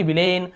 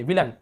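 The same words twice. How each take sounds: First: विलेन ending in a long "layn"; full, drawn "ay" at the end of विलेन; wrong pronunciation demo. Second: विलन with a short "lun" ending; reduced last vowel in विलन. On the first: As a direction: say विलेन as "vil-AYN". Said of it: "ऐसे यहाँ पे ये नहीं पढ़ेंगे". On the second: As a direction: say विलन as "VIL-un", lower. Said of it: "अ पढ़ रहे हैं इसे". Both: Shown as a demonstration.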